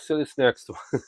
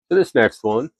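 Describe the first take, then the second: First: It sounds tired and unenthusiastic, after a sigh. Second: It sounds lively and enthusiastic.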